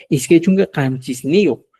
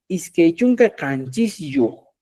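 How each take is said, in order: First: "Iskai chunka hanchis nio" with ni put in before yo; correct form. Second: "Iskai chunka hanchis yo" said slowly, with yo joined straight onto hanchis; wrong form. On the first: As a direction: model the right "hanchis nio" clearly. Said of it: "Entonces, fíjate". ("Iskai chunka hanchis nio" como forma correcta con ni) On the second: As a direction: show the awkward "hanchis yo" without ni. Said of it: "mi expresión va a sonar feo". ("Iskai chunka hanchis yo" lento, como forma incorrecta sin ni) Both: Shown as a demonstration.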